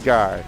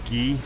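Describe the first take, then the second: First: It is pronounced like the English word guy. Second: It is pronounced with a French sound, like ghee. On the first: "when I say a guy, his name is literally Guy" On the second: "or maybe Guy is how you pronounce it. Might be a French gentleman"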